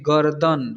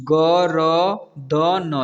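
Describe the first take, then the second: First: Said in the usual way. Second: गरदन very slow, each letter separate; गरदन broken into drawn-out letters; spelled out letter by letter. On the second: Shown as a demonstration. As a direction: sound out गरदन one long letter at a time. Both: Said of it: "इसे पढ़ेंगे".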